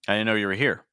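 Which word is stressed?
here. The stress is on the word here. "I'm stressing here"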